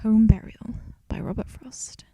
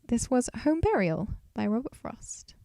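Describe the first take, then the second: First: It is said in a somber tone. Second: It is said in a cheerful tone.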